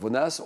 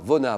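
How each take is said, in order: First: The name ends with an audible S sound. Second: The name ends on a vowel, no S sound. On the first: The speaker calls it wrong. "on prononce le S ou pas?" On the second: The speaker calls it right. "on ne prononce pas le S"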